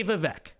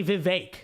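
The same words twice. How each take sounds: First: Vivek said vih-VECK, short e like neck; Vivek, spelled-out English way: vi-VECK; anglicized pronunciation. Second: Vivek said vih-VAKE, long ay like make; pronunciation he rejects. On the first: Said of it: "I'm gonna say Vivek". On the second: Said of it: "I'm not gonna say Vivek". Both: Shown as a demonstration.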